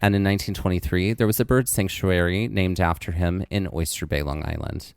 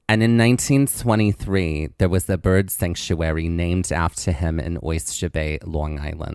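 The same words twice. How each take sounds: First: It is said in a neutral accent. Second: It is said in a Long Island accent.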